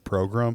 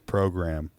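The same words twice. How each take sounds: First: The word is pronounced in an unusual way. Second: The word is pronounced in the ordinary way. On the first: This is how an older relative mispronounces it. The speaker calls it wrong. "It's just the way my grandfather says the word program. He always says program" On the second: This is how the relative believes he says it. The speaker calls it right. "he thinks that he just says program"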